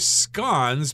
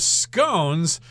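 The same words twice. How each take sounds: First: It is said with a British pronunciation. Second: It is said with an American pronunciation. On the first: "if you talk to somebody from the U K, they're probably going to say" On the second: "that is the American pronunciation"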